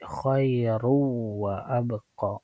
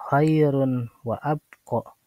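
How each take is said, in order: First: The n merges into a nasalized w. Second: The n is pronounced clearly before the w. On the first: The speaker calls it right. "tapi khairu wa abqa" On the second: The speaker calls it wrong. "bukan khairun wa abqa"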